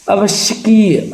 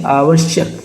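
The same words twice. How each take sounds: First: आवश्यकीय said high, stretched "kee" ending; wrong "kiya" ending. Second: आवश्यक said as "aavashyak"; correct short ending. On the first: Teacher shows the mistake, आवश्यकीय with long "keey". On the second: Teacher corrects the word, आवश्यक ending on k. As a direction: end आवश्यक on k. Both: Shown as a demonstration. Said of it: "आवश्यकीय नहीं".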